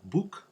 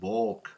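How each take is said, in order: First: The vowel sounds like standard English. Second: The vowel sounds like a Spanish reading. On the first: The word is clearly understood. The speaker calls it right. "which is very clear and generally understood" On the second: The word is hard to understand. The speaker calls it wrong. "in the way uh, we read it in Spanish that is clearly not intelligible"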